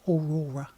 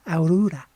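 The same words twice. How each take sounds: First: "Aurora" said the English way, stress on the second syllable "ror", as aw-RAW-ra; plain English "Aurora" with a falling end, aw-RAW-ra; English pronunciation. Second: "Aurora" as ow-ROO-da, opening on "ow" with a tapped r like a d; Norwegian-style pronunciation. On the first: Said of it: "It's not easy to say Aurora in English". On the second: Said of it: "it sounds like Aurora". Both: Shown as a demonstration.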